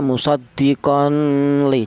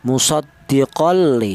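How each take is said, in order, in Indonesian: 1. Ada dengung sengau sebelum l. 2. Tidak ada dengung sengau sebelum l. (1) "Jangan dibaca ada dengungnya" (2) "dibaca tanpa ada suara berdengung"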